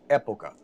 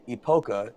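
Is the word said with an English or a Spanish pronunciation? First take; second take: Spanish; English. First: It is said with a Spanish pronunciation. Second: It is said with an English pronunciation. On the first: The speaker calls it right. "the word in Spanish is pronounced época" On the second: The speaker calls it wrong. "to any Spanish speaking person who hears someone say "epoca," ... they just cringe"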